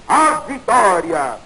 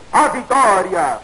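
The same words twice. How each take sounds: The two takes are said the same way.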